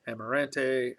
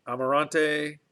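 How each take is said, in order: First: "Amarante" with flattened "a" as in "cat"; "Amarante", short "an" before "tay"; alternative pronunciation. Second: "Amarante" with broad "ah" vowels; tentative "Amarante", open "ahn" before "tay"; trying a pronunciation. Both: Shown as a demonstration. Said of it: "I don't know how you say it".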